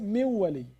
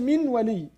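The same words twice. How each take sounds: First: The n is skipped and merges into the w. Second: The n is said fully before the w. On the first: The speaker calls it right. "they come to skip part of it" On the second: The speaker calls it wrong. "they don't say min wali. It's hard"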